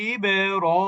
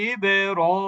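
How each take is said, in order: No difference in how they are said.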